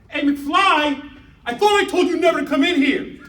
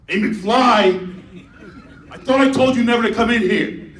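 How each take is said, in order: First: It is said in Biff's high voice. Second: It is said in older Biff's lower voice.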